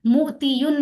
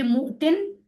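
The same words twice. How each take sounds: First: मोतीयुन with the full ya and un ending, as a wrong take; teacher says मोतीयुन the wrong way on purpose; wrong pronunciation. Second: मोतिन said short as mo-tin, the ya dropped; correct pronunciation. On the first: Teacher showing students the wrong form, pronounced deliberately. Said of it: "मोतीयुन नहीं पढ़ेंगे". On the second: Teacher giving students the right form, pronounced clearly. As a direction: say मोतिन clipped to two syllables. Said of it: "तो इसको मोतिन पढ़ेंगे". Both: Shown as a demonstration.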